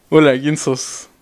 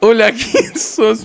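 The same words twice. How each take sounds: First: Slow, lower hello; low rehearsed greeting. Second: Drawn-out, higher hello; slow rehearsed greeting. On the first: Streamer rehearses meeting Farfa, slow and low. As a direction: take the practice greeting down low. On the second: Streamer rehearses meeting Farfa, slow and higher. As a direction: stretch out the practice greeting. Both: Pretend.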